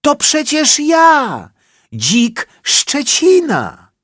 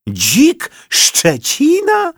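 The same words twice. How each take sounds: First: Very high, loud, slow boar voice; boar's voice. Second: Very high, slow astonished shout; shouted together. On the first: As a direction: announce yourself in a squeaky boar voice. Boar reveals himself. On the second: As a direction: cry out in shock. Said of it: "krzyknęli jednym głosem". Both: A narrator's reading.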